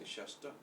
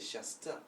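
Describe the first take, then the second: First: The t is retroflex, with the tongue lifted. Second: The t is dental, tongue behind the teeth. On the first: The speaker calls it right. "we say shasta. See the difference?" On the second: The speaker calls it wrong. "We don't say shasta"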